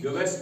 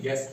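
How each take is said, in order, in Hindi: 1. g के बाद u बोला जाता है। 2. g के बाद u साइलेंट रहता है। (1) "गेस्ट नहीं पढ़ा जाएगा" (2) "बल्कि गेस्ट पढ़ा जाएगा"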